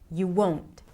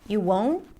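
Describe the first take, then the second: First: It sounds certain and strong, with a falling end. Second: It sounds less certain and less forceful. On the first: The answer is final and certain. The speaker calls it right. "There is a lot of certainty here" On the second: The answer is less definite. The speaker calls it wrong. "it makes it a little less powerful"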